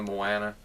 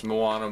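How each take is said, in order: First: Moana with a short "a" as in "can"; alternate pronunciation. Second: Moana with a broad "ah"; first pronunciation. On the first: Vlogger comparing ways to say it, short-a pronunciation. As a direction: say Moana as mo-ANN-a. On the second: Vlogger comparing ways to say it, broad-ah pronunciation. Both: Shown as a demonstration. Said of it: "not sure exactly how you say it".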